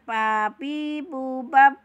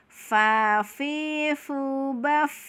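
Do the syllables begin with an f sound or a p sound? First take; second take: p sound; f sound. First: The syllables begin with a stopped p sound. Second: The syllables begin with a breathy f sound. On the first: The speaker calls it wrong. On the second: The speaker calls it right. "Temukan bibir gigi kita ke bibir bawah"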